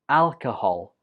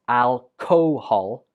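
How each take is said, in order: First: The second syllable has a reduced schwa vowel. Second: The second syllable has a full vowel. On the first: The speaker calls it right. "The second syllable uses the schwa, so it takes a weak form" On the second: The speaker calls it wrong. "not alcohol"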